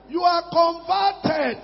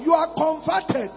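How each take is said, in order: First: You are converted, slowed, with weight on are; slow emphatic stress. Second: Said in the usual way. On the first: Shown as a demonstration. Preacher pressing the point home, slow stress on are. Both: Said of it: "That is conversion".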